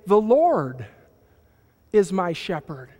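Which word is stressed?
Lord. The word Lord carries the main stress. There is only one real Lord. "He is the one, the Savior, the Creator"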